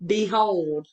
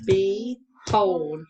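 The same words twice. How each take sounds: First: Said in the usual way. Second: "Behold" split into be, pause, hold; syllable by syllable. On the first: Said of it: "pounder ready". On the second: Shown as a demonstration. Teacher pounding syllables for a pupil, "Behold" syllable by syllable. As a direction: pound out "Behold" slowly as two separate beats. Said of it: "First syllable".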